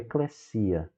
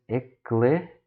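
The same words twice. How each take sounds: First: The stress falls before the final syllable. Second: The stress falls on the final syllable.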